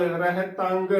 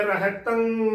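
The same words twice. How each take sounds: First: ਰਹਿਤੰਗ closing on a sounded g; ਰਹਿਤੰਗ as "reh-tang-g"; hard g ending. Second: ਰਹਿਤੰ trailing into a held nasal; ਰਹਿਤੰ as "rehtaṅ"; nasal "tan" ending. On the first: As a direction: release a g at the end of ਰਹਿਤੰਗ. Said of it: "ਬਿਲਕੁਲ ਗਲਤ ਉਚਾਰਨ ਹੋਵੇਗਾ". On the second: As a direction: end ਰਹਿਤੰ on ng with no g. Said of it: "ਤੱਤੇ ਨੂੰ ਟਿੱਪੀ ਤੰ ਦੇ ਨਾਲ". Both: Shown as a demonstration.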